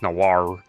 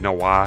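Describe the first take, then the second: First: The name is said slowly with careful enunciation. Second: The name is said casually, without careful enunciation. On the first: This is the correct way to say the name. The speaker calls it right. "no, it's Noir" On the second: This is how others said the name. The speaker calls it wrong. "they said Noir"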